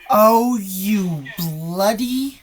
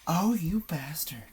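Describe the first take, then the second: First: Loud, slow, drawn-out exclamation; shocked outburst. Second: Hushed, slower whispered curse; whispered shock. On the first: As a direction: blurt it out in shock. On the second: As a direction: breathe it out under your breath. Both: Real, not acted. Reacting to a scary clip.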